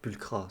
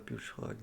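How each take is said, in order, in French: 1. Le son du milieu est un son 'k'. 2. Le son du milieu est un son 'sh'. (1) "ça se dit Pulcra, non?" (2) "Moi, je vois C H, hein, je prononce ch"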